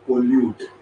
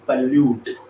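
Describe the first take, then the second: First: The first vowel is a full 'oh'. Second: The first vowel is a short 'uh'. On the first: The speaker calls it wrong. "Not पोल्यूट" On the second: The speaker calls it right. "तसा हा word आहे पल्यूट"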